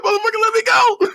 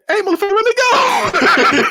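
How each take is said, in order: First: High squealed comic holler; hammed-up cry of pain; mock pained yell. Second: Very high, slow comic wail; hammed-up imitation of a pained villain; mock pained yell. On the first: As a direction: squeal it like the villain begging release. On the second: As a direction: holler high as if your hand is being crushed. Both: Retold villain yelling as hand cracks.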